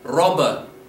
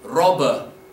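Both takes have the same delivery.

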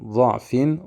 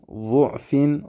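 First: The first vowel is an open a sound. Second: The first vowel is a rounded u sound. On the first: "Hepsini aynı hareke" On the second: "Eğer ötre ile okursak"

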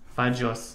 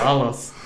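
First: The double L is said as a dj sound. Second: The double L is said as a plain l. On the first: It means mistakes. The speaker calls it right. "на двойной L имеет другой звук" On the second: It sounds like a vulgar anatomical word. The speaker calls it wrong. "Как на русском фалос"

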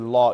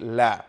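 First: The L sound is heavy and full. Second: The L sound is light and thin. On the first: The speaker calls it wrong. "You don't say la" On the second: The speaker calls it right. "you say la"

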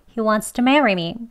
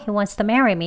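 First: Wants to is slightly reduced with an s-like sound. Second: Wants to is fastest, with the t barely heard. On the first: "공기 살짝 새어 나가게요. 스소리 들어갑니다. 조금 빨리 할게요" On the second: "더 빨리 약하게 발음을 하면요"

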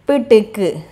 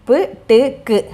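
Both takes have the same delivery.

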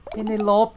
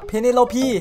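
First: The name ends on a final p consonant. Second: The name ends on an extra final pee vowel. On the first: The speaker calls it wrong. "คำเมื่อกี้ไม่ได้อ่านเพเนโลป" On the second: The speaker calls it right. "เขาอ่านว่าเพเนโลพี"

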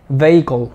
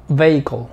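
No difference in how they are said.

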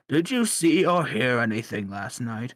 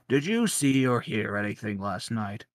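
First: The question is said more loudly. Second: The question is said at normal volume.

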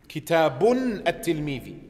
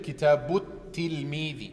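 First: The first word ends with an added n sound. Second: The first word runs straight into the second. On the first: The speaker calls it wrong. "Ich sage nicht Kitabun at-Tilmidi. Das ist falsch" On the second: The speaker calls it right. "wenn ich verbinde"

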